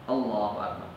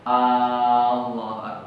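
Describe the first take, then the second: First: The first vowel of Allah is kept short. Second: The first vowel of Allah is drawn out long. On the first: It is a statement that God is great. The speaker calls it right. "Jadi A langsung Allahu gitu" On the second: It sounds like a question asking whether God is great. The speaker calls it wrong. "nggak boleh apa namanya dipanjangkan a-nya"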